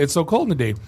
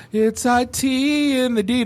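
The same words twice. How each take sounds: First: Said in the usual way. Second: Slow, high hammed-up intro line; mock intro drop. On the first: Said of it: "Instead of". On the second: Podcasters asked for an intro, drawn-out hammed drop. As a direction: say it like a show intro drop, slowly. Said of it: "to play in the beginning of the podcast".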